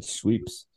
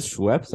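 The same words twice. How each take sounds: First: Schweeps with a long ee, shweeps; Schweeps mispronounced. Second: Schweppes with a short e, shweps; Schweppes said properly. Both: Shown as a demonstration. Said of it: "I always said Schweeps".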